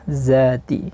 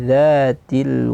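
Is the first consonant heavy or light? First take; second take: heavy; light. First: The first consonant is heavy and thick. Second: The first consonant is light and thin. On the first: The speaker calls it wrong. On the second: The speaker calls it right.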